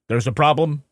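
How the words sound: It is said flatly, like a robot.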